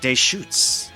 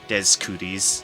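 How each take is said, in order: First: The name ends sounding like 'shoots'. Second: The name ends sounding like 'cooties'. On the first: The speaker calls it right. "It's pronounced Deschutes" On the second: The speaker calls it wrong. "the amount of people that pronounced it Des Cooties"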